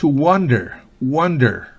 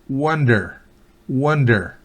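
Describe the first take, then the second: No difference in how they are said.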